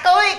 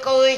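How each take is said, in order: First: The syllable is said with a sharp rising tone. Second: The syllable is said without a rising tone.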